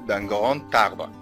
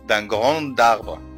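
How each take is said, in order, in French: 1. Grand se lie à arbre avec un son t. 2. Grand n'est pas lié à arbre avec un t. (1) "نقول d'un grand arbre" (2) "ما نقولش d'un grand arbre، غلط"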